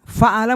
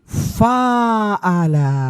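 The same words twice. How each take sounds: First: The first vowel is kept short. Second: The first vowel is held long. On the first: "dari tiga huruf" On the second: "Alif sesudah huruf yang pertama"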